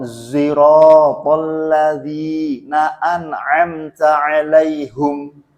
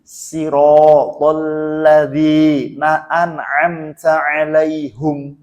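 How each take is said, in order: First: Slow chant, "ziratal" opening on a buzzed Z; chanted, recite "ziratal" with a voiced Z, vowels held long; chanted with zay. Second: Slow chant, thin S in "Siratal", u in "'alaihum"; chanted, recite "Siratal" with sin, long held vowels; chanted sin and hum. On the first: Teacher demonstrates another imam's reading, chanted with zay. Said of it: "boleh dibaca zayyan". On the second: Teacher demonstrates Imam Qombul's reading, sin and hum. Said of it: "malah boleh pakai sin". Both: Shown as a demonstration.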